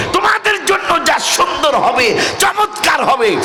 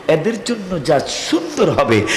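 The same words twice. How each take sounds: First: High preacher's cry; soaring, emphatic promise; rousing proclamation. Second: Said in the usual way. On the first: Acted. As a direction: ring it out high to rouse the crowd. Promise repeated at full force.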